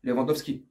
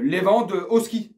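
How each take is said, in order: First: Said in the usual way. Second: Lewandowski said slowly, stretched, with a rise; stretched reveal of the name Lewandowski; drawn-out answer. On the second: Real, not acted. His own answer, drawn out after a pause.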